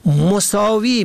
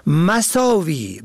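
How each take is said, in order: First: مساوی said mosâvi, short o first; مساوی pronounced mosâvi; damma on first. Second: مساوی said masâvi, short a first; مساوی pronounced masâvi; fatha on first. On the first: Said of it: "به ضم اول". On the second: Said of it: "به فتح اول". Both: Shown as a demonstration.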